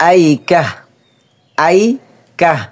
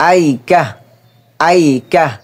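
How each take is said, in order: Both takes have the same delivery.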